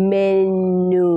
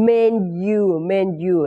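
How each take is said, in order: First: "menu" stretched as "men-noo", no y sound; slip of pronunciation. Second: "menu" slowly as "men-you", with a y glide; corrected pronunciation. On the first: Teacher slipping before correcting herself, mispronounced "men-noo". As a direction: say "menu" slowly with a plain noo ending. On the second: Teacher correcting her own slip, slow "men-you" pronunciation. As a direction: model "menu" with a clear "you" ending. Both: Shown as a demonstration. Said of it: "ไม่ใช่เมนูอีกอะ".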